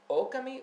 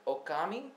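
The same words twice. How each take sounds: First: The stress is on the first syllable. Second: The stress is on a later syllable. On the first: "Is the emphasis on the O?" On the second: "Or is it Okami?"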